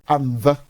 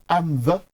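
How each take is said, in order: The two takes are said the same way.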